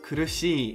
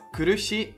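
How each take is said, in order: First: The final vowel is held long. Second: The final vowel is short. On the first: The speaker calls it right. "the syllable shi is prolonged" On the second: The speaker calls it wrong. "so it's not kurushi"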